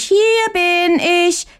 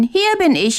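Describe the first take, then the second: First: "hier bin ich" very high, slow, crowing; drawn-out crow. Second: High calling out. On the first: ("hier bin ich" langsam und sehr hoch gekräht) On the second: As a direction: shout "hier bin ich" up to the sky. ("hier bin ich" hoch und laut gerufen) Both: A narrator's reading. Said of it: "ruft aus Leibeskräften".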